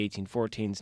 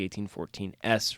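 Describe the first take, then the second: First: The final S is joined to fourteen as a plural. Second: The final S is spoken as a separate letter. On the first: The speaker calls it right. "it's the eighteen fourteens" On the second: The speaker calls it wrong. "not the eighteen fourteen S"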